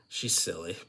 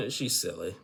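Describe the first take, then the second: First: Giggling through the words; laughing. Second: Said in the usual way. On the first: Real, not acted. Amused vlogger laughing about Tiger Lily.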